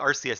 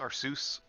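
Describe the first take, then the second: First: The ending does not sound like Zeus. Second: The ending sounds like the name Zeus. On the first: "I always called it Arceus" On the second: "like Zeus"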